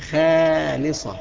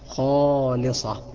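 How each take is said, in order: First: The first letter sounds thin and light. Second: The first letter sounds thick and heavy. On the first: The speaker calls it wrong. "ما أقولش خالصة، خالصة خطأ" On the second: The speaker calls it right. "إنما الصح خالصة خا"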